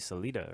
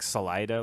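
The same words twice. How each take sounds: First: The name is said with a Spanish pronunciation. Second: The name is said with an English pronunciation. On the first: This is how it would be said in the original language. The speaker calls it right. "what it would be in Spanish" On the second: This is how the locals commonly say it. The speaker calls it wrong. "it's not pronounced like that, but that's what everybody calls it"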